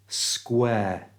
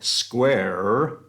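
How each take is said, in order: First: The final R sound is silent. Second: The final R sound is pronounced. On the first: The speaker calls it right. "we just say square. It's the air sound" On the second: The speaker calls it wrong. "instead of saying square"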